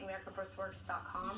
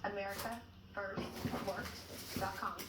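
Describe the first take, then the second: First: The address is said quickly. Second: The address is said slowly.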